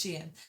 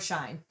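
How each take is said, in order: First: It is two syllables, 'she' then 'in'. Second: It is one syllable rhyming with 'line'. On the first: The speaker calls it right. "two syllables, where the first part rhymes with C and the p- second part of the word is in" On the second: The speaker calls it wrong. "It is not Sheen or Shine"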